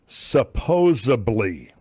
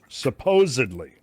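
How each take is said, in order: First: It is said with a b sound inserted. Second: It is said with a d sound, no b. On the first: The speaker calls it wrong. "I quite frequently hear people pronouncing it supposedly" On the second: The speaker calls it right. "the way you pronounce supposedly is supposedly"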